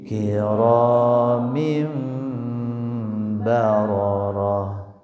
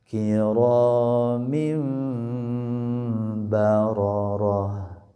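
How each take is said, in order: Both takes have the same delivery.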